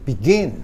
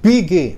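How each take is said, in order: First: The stress is on the second syllable. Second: The stress is on the first syllable. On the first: The speaker calls it right. "tapi begin. ... ginnya ini bertekanan" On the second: The speaker calls it wrong. "bukan begin, bukan"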